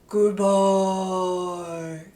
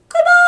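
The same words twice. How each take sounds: First: It is said in a low voice. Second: It is said in a high voice.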